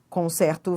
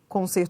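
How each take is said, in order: First: The stressed E vowel is open. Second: The stressed E vowel is closed. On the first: It is the verb form. "a pronúncia é aberta" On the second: It is the noun form. "o E tem pronúncia fechada"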